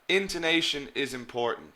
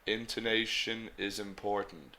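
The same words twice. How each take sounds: First: It is said lively, with varied pitch movement. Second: It is said flatly, with little pitch movement. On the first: The speaker calls it right. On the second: The speaker calls it wrong.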